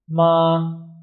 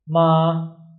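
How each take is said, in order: First: The pitch stays level and high throughout. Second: The same.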